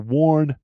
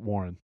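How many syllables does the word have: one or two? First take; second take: one; two. First: The word is said as one syllable. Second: The word is said as two syllables. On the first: The speaker calls it right. "So Warren" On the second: The speaker calls it wrong. "Some people add an extra syllable in there"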